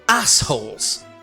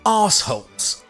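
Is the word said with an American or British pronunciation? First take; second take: American; British. First: It is said with an American pronunciation. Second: It is said with a British pronunciation. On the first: "In America, however, it becomes assholes" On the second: "In England, we proudly say arseholes"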